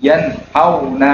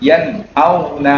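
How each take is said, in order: Both takes have the same delivery.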